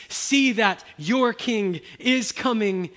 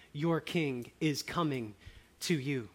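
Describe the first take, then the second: First: Loud, raised, slow proclamation; fervent preaching. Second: Said in the usual way. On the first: Acted. Preacher calling the congregation to see, loud slow proclaiming. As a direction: call the whole room to look.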